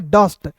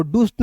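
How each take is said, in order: First: डस्ट with a short 'uh' vowel; short, central vowel in डस्ट; correct pronunciation. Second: डूस्ट with a long 'oo' vowel; wrong pronunciation. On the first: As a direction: say डस्ट to rhyme with 'must'. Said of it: "इसे पढ़ेंगे डस्ट". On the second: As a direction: say डूस्ट like 'doost'. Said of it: "डूस्ट नहीं पढ़ेंगे". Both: Shown as a demonstration.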